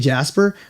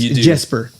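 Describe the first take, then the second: First: The first vowel sounds like the one in 'cat'. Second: The first vowel sounds like the one in 'bed'. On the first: The speaker calls it wrong. "I keep messing his name. I want to say Jasper" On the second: The speaker calls it right. "but it's Jesper"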